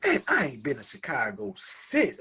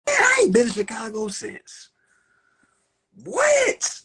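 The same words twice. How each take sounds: First: Said in the usual way. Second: Shouted high and loud, far from his usual voice; emphatic shout. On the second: Real, not acted. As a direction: belt it out so the back row hears.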